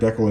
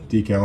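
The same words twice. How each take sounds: First: It is said the Canadian way. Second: It is said the American way. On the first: "Decal in Canada" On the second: "decal in the States"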